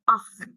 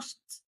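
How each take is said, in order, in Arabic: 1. الحرف الأوسط صوته kh. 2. الحرف الأوسط صوته sh. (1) "لا اخت" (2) "مش تقولي اشط"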